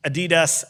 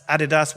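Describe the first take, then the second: First: "Adidas" with stress on DEE, uh-DEE-das; American-style "Adidas", a-DEE-das; American pronunciation. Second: "Adidas" with stress on the first syllable, AD-ee-das; British-style "Adidas", AD-i-das; British pronunciation. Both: Shown as a demonstration. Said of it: "whatever the hell we wanna call".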